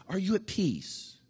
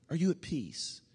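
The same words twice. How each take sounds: First: Gentle question. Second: Softer question. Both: Shown as a demonstration.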